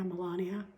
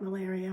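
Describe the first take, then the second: First: Melania with an "ah" vowel and an n, muh-LAH-nee-uh; Melania as the name. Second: Malaria with an "air" vowel, muh-LAIR-ee-uh; malaria said plainly. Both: Shown as a demonstration. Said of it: "Get it?".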